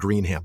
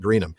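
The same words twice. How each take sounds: First: The last syllable is a full 'ham'. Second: The last syllable is reduced to 'um'. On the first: The speaker calls it wrong. "it's spelled Greenham" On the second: The speaker calls it right. "but you would pronounce it Greenham"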